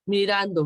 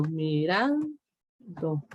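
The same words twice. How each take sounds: First: Said in the usual way. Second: Mirando, very slow and drawn out, stressing ran; estresando la sílaba. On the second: Shown as a demonstration. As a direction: stretch Mirando slowly, leaning on ran. (Mirando, muy lento y alargado, marcando "ran") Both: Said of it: "el sonido fuerte".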